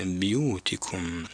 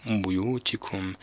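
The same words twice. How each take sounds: First: بيوتكم said bu-yutikum with a u on the ba; damma on the ba. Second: بيوتكم said biyutikum with an i on the ba; بيوتكم with kasra, the common slip. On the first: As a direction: say بيوتكم with the ba rounded, bu. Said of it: "هنا الباء مضمومة وليست مكسورة". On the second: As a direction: say بيوتكم with the ba broken, bi. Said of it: "بكسر الباء". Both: Shown as a demonstration.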